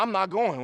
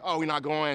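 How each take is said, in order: First: Higher and louder, firm and final; meaning it. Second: Half-meant threat. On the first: Shown as a demonstration. Dad to his pouting son, firm and meaning it. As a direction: plant your feet and mean every word. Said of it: "When I say I'm not going, I'm not going". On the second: Retold or imitated. Parents to their pouting kid, a half-hearted empty threat. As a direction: say it like you won't follow through. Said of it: "and then they don't really mean it".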